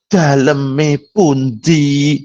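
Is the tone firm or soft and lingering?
soft. It is said softly, drawn out and lingering. It sounds overly humble and alluring. The speaker calls it wrong. "Seperti itu malah tidak bagus"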